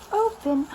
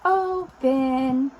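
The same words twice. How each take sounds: First: Said in the usual way. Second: "Open" stretched slowly into two loud syllables; drawn-out demonstration. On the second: Shown as a demonstration.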